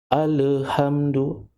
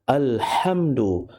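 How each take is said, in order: First: The lam has a bouncing echo sound. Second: The lam is clear and held still. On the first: The speaker calls it wrong. "Jangan kita baca seolah-olah ada bunyi qalqalah" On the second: The speaker calls it right. "Kena baca alhamdu, Jelaskan huruf lam"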